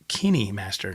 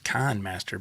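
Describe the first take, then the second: First: The first part sounds like 'Kenny'. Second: The first part sounds like 'Kind'. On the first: This is how the name is actually pronounced. The speaker calls it right. "It's called Kenny Master" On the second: This is how the name looks from its spelling. The speaker calls it wrong. "I thought it was Kind Master"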